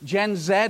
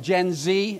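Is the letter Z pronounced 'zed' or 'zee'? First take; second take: zed; zee. First: The letter Z is said as 'zed'. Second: The letter Z is said as 'zee'.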